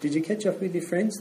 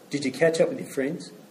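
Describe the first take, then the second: First: The question sounds friendly and kind. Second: The question sounds irritable and sharp. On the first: The asker seems genuinely interested and pleased. "if I hear a warm tone" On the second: The asker seems to disapprove of the outing. "if I hear a cranky tone in that"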